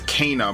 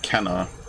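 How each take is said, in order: First: The first vowel sounds like 'ay' in 'say'. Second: The first vowel sounds like 'e' in 'bed'. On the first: The speaker calls it right. "It's Kana" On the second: The speaker calls it wrong. "not Kenna. I've been saying it wrong for years"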